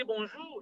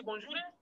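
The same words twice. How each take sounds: First: "bonjour" ending on an open "zhoo", no r; demonstrated pronunciation. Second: "bonjour" softer, with a rising end; mispronunciation. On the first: Teacher contrasts two ways, "bonjour" without the final r. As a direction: say "bonjour" with the r dropped, pitched up. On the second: Teacher shows inconsistent speaker, "bonjour" soft and rising. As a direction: say "bonjour" quietly, tipping up into a questioning "eh". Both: Shown as a demonstration. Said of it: "That must have been mispronunciation".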